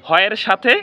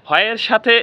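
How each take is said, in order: The two takes are said the same way.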